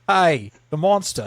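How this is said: It is spoken in an Australian accent. The speaker calls it wrong. "I was Australian"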